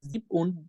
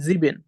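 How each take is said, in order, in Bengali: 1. মাঝের ব্যঞ্জনটির উচ্চারণ 'p'-এর মতো। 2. মাঝের ব্যঞ্জনটির উচ্চারণ 'b'-এর মতো। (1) "আপনি একটু মিস্টেক করেছেন" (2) "সেটা হবে জিবেন"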